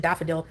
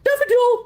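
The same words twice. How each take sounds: First: Said in the usual way. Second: Very high, loud pet call; shrill squeal. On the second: Shown as a demonstration. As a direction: squeal the name out. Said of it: "to shrilly squeal it out".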